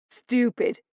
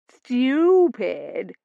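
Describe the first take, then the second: First: Said in the usual way. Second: Stupid with rising, higher, ladylike lilt; her posh accent. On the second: Shown as a demonstration. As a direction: copy her refined Stupid. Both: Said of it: "Only say it the way you did".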